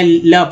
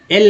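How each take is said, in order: First: "ल" as a short "la" sound; letter sound. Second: "एल" as the name of the letter L; letter name, rejected. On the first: Teacher giving the sound to read, short "ल". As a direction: say "ल" with the consonant first. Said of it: "ल पढ़ेंगे". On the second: Teacher showing what not to read, letter name "एल". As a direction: say "एल" with the vowel first. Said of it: "एल नहीं पढ़ेंगे". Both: Shown as a demonstration.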